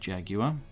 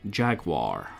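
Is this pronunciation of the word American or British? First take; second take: British; American. First: It is said with a British pronunciation. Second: It is said with an American pronunciation. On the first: "in Old Blighty we pronounce it Jaguar" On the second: "in America it's Jaguar"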